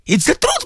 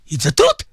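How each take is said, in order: First: Emphatic higher restatement. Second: Said in the usual way. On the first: Real, not acted. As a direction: say it again higher, insisting. Repeats claim, raised.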